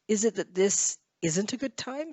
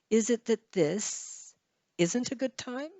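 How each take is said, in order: First: It is said as one linked group, without pausing. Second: It is split into two groups by a pause. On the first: "it depends on how fast you speak" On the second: "if you pause, if you have two thought groups here"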